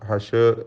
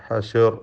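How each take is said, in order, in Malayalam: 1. ഷ് ശബ്ദത്തിനു ശേഷം ഒരു ചെറിയ സ്വരാക്ഷരം ചേർക്കുന്നു. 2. ഷ് ശബ്ദത്തിനു ശേഷം ഒരു ചെറിയ സ്വരാക്ഷരം ചേർക്കുന്നു.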